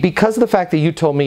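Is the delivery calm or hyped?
calm. It is said calmly, without rising up talk. The speaker calls it right. "listen to my tonality, no up talk"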